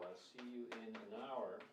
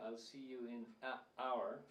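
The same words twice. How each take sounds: First: An N sound links the words smoothly together. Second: The voice stops abruptly before the word hour. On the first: The speaker calls it right. "we add an N here, just to make it flow" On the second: The speaker calls it wrong. "you have to stop. It's a staccato"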